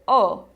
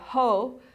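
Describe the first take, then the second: First: The word begins directly with the vowel. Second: The word begins with an audible h sound. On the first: The speaker calls it right. "you say o" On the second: The speaker calls it wrong. "you don't say ho"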